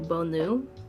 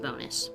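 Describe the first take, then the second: First: The name is said in a French-style way. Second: The name is said in a plain non-French way. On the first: This is the traditional way to say it. "I think it's French. Um, so it might be like Bonu" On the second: This is how the family says it. "But I pronounce it bonus"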